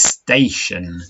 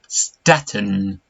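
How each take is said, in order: First: The middle is an sh sound. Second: The middle is a plain t sound. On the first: The speaker calls it right. "But it's not, it's station" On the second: The speaker calls it wrong. "if we read that without the sh"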